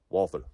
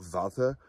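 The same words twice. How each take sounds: First: The name is said with an American pronunciation. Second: The name is said with a German pronunciation. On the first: "for an American audience" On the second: "The German pronunciation would be something closer to Walther"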